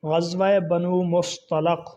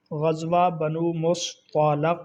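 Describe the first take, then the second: First: بنو مصطلق said slowly, stress on غزوہ; 慢读示范مصطلق的发音; careful pronunciation. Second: مصطلق said with zabar on ط and ل, very slowly; 再慢一遍读出مصطلق中两个扎巴尔; slower repeat. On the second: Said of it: "طا کے اوپر بھی زبر ہے". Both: Shown as a demonstration.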